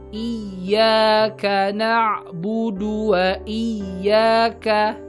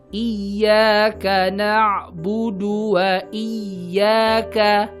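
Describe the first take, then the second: The two takes are said the same way.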